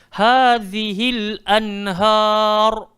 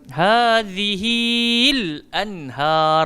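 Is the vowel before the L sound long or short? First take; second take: short; long. First: The vowel before the L sound is short. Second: The vowel before the L sound is drawn out. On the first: The speaker calls it right. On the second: The speaker calls it wrong.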